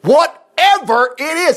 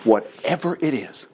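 First: "Whatever" stretched slow and higher; drawn-out whatever. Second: "whatever it is" said soft and slow; plain quiet reading. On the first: Retold or imitated. Eli ending his blessing, stretching "Whatever" slowly. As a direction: lean hard on "Whatever". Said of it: "Look at that". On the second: Shown as a demonstration. Preacher rereading Eli's words softly and slowly. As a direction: murmur "whatever it is" simply. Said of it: "He said".

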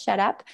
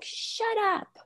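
First: Said in the usual way. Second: High-pitched, softly voiced mock "shut up"; retold defiant outburst. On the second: Frustrated son cutting mom off, mock defiance. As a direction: imitate a kid's high, defiant retort. Retold child snapping back.

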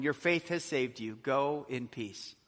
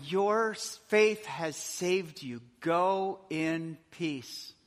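First: Said in the usual way. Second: Very slow, gentle release; slow tender blessing. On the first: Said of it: "And he said to the woman". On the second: Shown as a demonstration. Jesus sending the forgiven woman away, slow and tender. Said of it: "Look at that".

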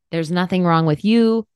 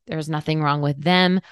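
First: There's nothing wrong with "you", leaning on "you"; stress on you. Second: There's nothing wrong with "them", leaning on "them"; stress on them. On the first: Reassuring the listener it's not her fault, stress on "you". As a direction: land the weight on the last word "you". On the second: Telling the listener it's not the partner's fault either, stress on "them". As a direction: let "them" carry the weight, a touch lower. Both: Shown as a demonstration.

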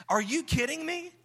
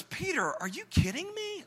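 First: Exasperated Jesus. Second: High, incredulous scold; Jesus reproaching Peter in high disbelief; exasperated Jesus. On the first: Jesus scolding Peter, repeated. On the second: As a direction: act like you can't believe what he did. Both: Acted.

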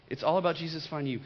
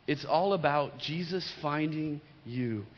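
First: Fast, tossed-off repeat; quick. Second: Slow and deliberate, leaning on all. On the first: Preacher repeating the point, fast. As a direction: rattle it off quickly. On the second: Preacher making the point sink in, slow. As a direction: lay it down slowly, word by word. Repeated line, slow take. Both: Real, not acted.

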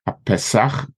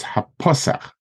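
First: "ha Pesach" stressed on the end, ha-pe-SACH; the mistaken end-stressed "ha Pesach"; wrong reading. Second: "ha Pasach" as ha-PA-sach; front-stressed "Pasach" after a light "ha"; correct reading. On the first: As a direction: push the last syllable of "ha Pesach". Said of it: "not ha". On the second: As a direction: hit PA in "ha Pasach". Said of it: "You're supposed to read it like". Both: Shown as a demonstration.

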